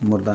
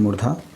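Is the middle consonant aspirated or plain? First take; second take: plain; aspirated. First: The middle consonant is a plain d sound. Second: The middle consonant is an aspirated dh sound. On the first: The speaker calls it wrong. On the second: The speaker calls it right.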